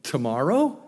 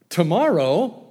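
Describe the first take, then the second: First: Said in the usual way. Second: Incredulous. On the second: Real, not acted. Preacher mocking Pharaoh's strange choice, incredulous. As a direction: throw "Tomorrow?" back in disbelief.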